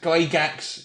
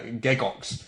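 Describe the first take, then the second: First: The surname is said as 'Gygax'. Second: The surname is said as 'Gegox'. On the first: This is how the family says it. "how my family pronounces my name" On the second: This is the original Swiss way. "in the proper Swiss it was originally pronounced"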